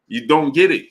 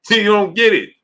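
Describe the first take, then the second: First: Said in the usual way. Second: Exasperated. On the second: Real, not acted. Repeats louder, exasperated.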